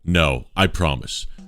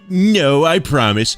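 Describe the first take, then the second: First: It is read in a plain voice. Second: It is read in a put-on character voice.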